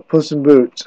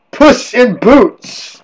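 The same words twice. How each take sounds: First: Said in the usual way. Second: "Puss in Boots" drawn out slowly, higher pitch; dramatic title announcement. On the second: Acted.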